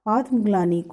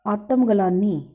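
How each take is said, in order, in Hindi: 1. व्यंजन कसकर जुड़े गुच्छों में बोले जाते हैं। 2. अतिरिक्त स्वर व्यंजन गुच्छों को तोड़ देते हैं।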